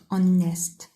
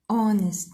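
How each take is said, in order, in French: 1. L'accent tombe sur la deuxième syllabe. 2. L'accent tombe sur la première syllabe. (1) "not honest" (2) "we put the stress on the first syllable. So we say honest"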